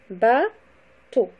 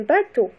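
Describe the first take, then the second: First: "Bateau" split into ba, pause, teau; syllable by syllable. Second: Said in the usual way. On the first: Shown as a demonstration. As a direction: break "Bateau" into two separate, louder syllables. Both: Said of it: "le découpage syllabique".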